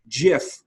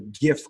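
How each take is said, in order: First: It begins with a soft 'j' sound. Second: It begins with a hard 'g' sound. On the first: It refers to the file format. "GIF with the soft G was the preferred um, pronunciation" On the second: It refers to the online culture. "you would say it with a like hard G"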